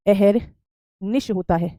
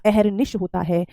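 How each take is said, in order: First: अहरनिश drawn out very slowly, syllable by syllable; teacher dictating the correct word very slowly; very slow dictation. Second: Said in the usual way. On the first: Shown as a demonstration. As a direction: stretch every syllable of अहरनिश so students can write it. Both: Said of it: "अहरनिशी जैसा कोई श".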